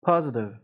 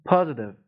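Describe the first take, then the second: Both takes have the same delivery.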